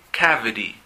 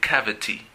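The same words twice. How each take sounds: First: It has an American accent; the T sounds like a D. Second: It has a British accent with a clear T sound.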